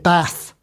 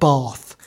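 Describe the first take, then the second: First: It is said in a broad Lancashire accent. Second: It is said in a non-Lancashire accent. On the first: This is how the local people speak. "he spoke with a broad Lancashire dialect. He said Bath" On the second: This is not how the local people speak. "not Bath"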